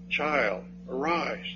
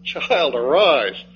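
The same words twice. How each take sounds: First: Put-on quiet, gentle "Child, arise"; soft command. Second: Said in the usual way. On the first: Shown as a demonstration. Preacher showing how Jesus raised the girl, spoken softly. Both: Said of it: "Two words".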